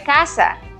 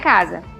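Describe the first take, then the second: First: The middle consonant is a hissing s sound. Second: The middle consonant is a buzzing z sound. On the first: The speaker calls it right. "É casa" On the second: The speaker calls it wrong. "não é casa"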